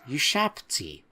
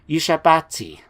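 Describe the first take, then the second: First: No vowel is sounded between 'b' and 't'. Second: An extra vowel is sounded between 'b' and 't'. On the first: The speaker calls it right. "there is no second A, and we should be pronouncing it Ushabti" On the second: The speaker calls it wrong. "I've been saying it wrong"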